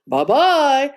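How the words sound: It is said in a deep, gruff voice.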